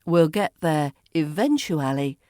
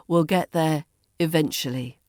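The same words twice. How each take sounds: First: "eventually" as ih-VEN-choo-AL-ee; full form. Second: "eventually" as ih-VENCH-uh-lee; reduced form. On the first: Teacher models the long form for learners, "eventually" fully sounded. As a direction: give "eventually" all its syllables. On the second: Teacher models the shortened form for learners, "eventually" as ih-VENCH-uh-lee. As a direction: drop the "oo" in "eventually". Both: Shown as a demonstration. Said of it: "Eventually becomes".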